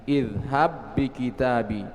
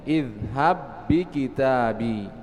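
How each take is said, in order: Both takes have the same delivery.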